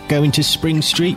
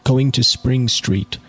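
First: It is said in an attempted Australian accent. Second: It is read in the reader's ordinary accent.

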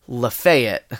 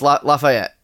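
First: It is said the way Southerners say it. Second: It is said the local Northern California way. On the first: This is how people from the South say the name. "but it's pronounced Lafayette" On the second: This is how locals say the name. "that's how it's pronounced, Lafayette"

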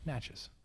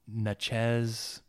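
First: The word rhymes with matches. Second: The word does not rhyme with matches. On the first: The speaker calls it right. "it's like matches with an M, but like it's an N" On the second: The speaker calls it wrong. "the way he butchered the pronunciation was like Natchez"

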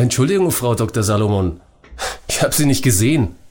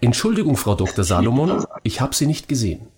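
First: It is said in an arrogant tone. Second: It is said in a neutral tone.

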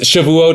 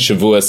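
First: It is said in a non-European style. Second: It is said in a European style. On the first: "is one pronunciation" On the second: "is like the more European pronunciation"

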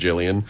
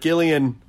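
First: The name starts with a soft J sound. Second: The name starts with a hard G sound. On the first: "soft G Jillians" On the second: "hard G"

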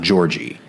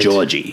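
First: The R sound is strong and clearly heard. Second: The R sound is soft and barely heard. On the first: This is how the character does not say it. "and not Georgie" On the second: This is how the character actually says it. "he doesn't have to hit his R's very hard. Like he says Georgie"

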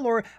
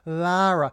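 First: The first vowel sounds like aw. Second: The first vowel is a drawn-out ah. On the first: "it's not Laura" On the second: "you don't want to go too much on the ah"

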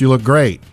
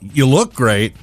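First: It is said warmly, as a plain compliment. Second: It is said hesitantly, as if a 'but' follows. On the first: The compliment is meant honestly. The speaker calls it right. "like number 46" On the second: A criticism is about to follow the compliment. The speaker calls it wrong. "with me, well, ... You're expecting the butt"

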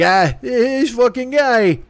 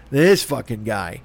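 First: It sounds fond and affectionate. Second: It sounds contemptuous and disgusted.

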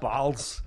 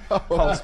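First: The word is said with an Austrian accent. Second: The word is said in a plain accent.

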